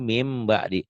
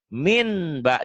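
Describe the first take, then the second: First: The first word ends with a nasal M sound. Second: The first word ends with an N sound. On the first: "Bunyinya jadi M" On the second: "ini min tuh"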